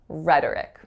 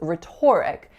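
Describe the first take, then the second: First: The second syllable has a reduced schwa vowel. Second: The second syllable has a full, stressed O vowel. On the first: The speaker calls it right. "my second syllable has an alveolar flap going right into a schwa" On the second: The speaker calls it wrong. "I used to think this word was pronounced as rhetoric"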